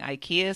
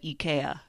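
First: It is said with an American pronunciation. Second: It is said with a Swedish pronunciation.

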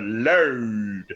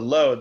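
First: The word is said with a distorted rock-singer vowel. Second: The word is said in a plain, normal way. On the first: "they go load" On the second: "as opposed to load"

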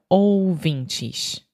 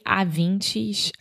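First: The first vowel is a strong, exaggerated ou. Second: The first vowel sounds like a plain a. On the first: The speaker calls it right. "realmente exagera no ou" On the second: The speaker calls it wrong. "Eu escutei avintes ao invés de ouvintes"

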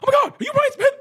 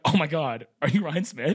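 First: It is screamed in a very high voice. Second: It is said at normal speaking pitch.

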